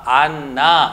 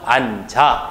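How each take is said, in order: First: The second syllable begins with an 'n' sound. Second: The second syllable begins with a 'j' sound. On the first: The speaker calls it wrong. "안, 나 이렇게 발음을 해야 된다는 거예요. 근데 어때요? 역시 어색하죠?" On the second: The speaker calls it right. "지읒이 뒤에 있는 첫 소리로 올라가서 앉아 이런 식으로 발음을 한다"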